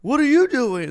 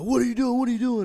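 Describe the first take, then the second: First: Very high, loud mocking echo; student echoes the cadets, loud mock yell; mocking them back. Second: Much higher, loud demanding yell; cadets yelling. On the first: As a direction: throw their question back at them, louder. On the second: Retold or imitated. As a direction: shout it like a cadet stopping a trespasser. Cadets confronting him.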